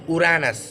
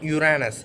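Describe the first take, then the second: First: It is pronounced the original Greek mythology way. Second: It is pronounced the later, changed everyday way. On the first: This is how the god's name was first said. The speaker calls it right. "Actual pronunciation is Uranus" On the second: This is how people came to say it through repetition. The speaker calls it wrong. "not Uranus"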